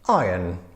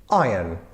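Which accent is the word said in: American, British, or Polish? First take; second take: British; British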